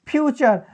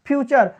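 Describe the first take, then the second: The two takes are said the same way.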